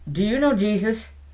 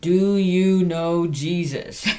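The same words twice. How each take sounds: First: It is said at a normal speed. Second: It is said slowly and carefully.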